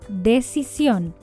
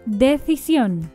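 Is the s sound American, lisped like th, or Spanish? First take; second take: American; lisped. First: The s is a Latin American s. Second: The s sounds like a th sound. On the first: "Sin ceseo en América" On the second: "con ceseo"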